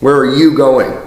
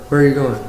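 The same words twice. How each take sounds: First: The words are projected outward to the listener. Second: The words are held back, not projected outward.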